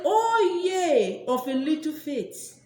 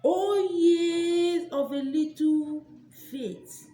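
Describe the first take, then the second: First: Intoned scripture. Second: Drawn-out scripture. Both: Pretend. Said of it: "Bible say".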